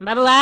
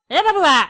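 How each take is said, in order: First: Gentle rising call of the name; a mild first call; soft call. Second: High, loud wake-up call; raised calling shout. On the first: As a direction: coax the child awake by name. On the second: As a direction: shout the name to wake him. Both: Acted. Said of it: "इतना जोर से चिल्लाने पे".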